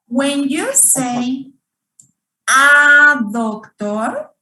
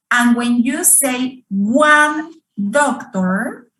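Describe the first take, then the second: First: "a doctor" with the weight on doctor, slow; stress on doctor. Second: "one doctor" with "one" punched; stress on one. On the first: Teacher showing the noun matters more. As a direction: lean on "doctor", keep "a" light. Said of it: "you pay more attention to the noun". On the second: Teacher showing the stress falls on quantity. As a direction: hit "one" to stress the number. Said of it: "You want to emphasize on the quantity". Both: Shown as a demonstration.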